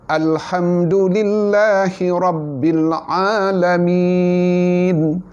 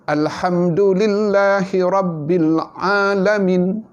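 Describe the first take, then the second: First: The last vowel is held long before stopping. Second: The last vowel is clipped short with no lengthening. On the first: "Ha, panjang" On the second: "Maka semuanya kontot-kontot, tak ada mad langsung"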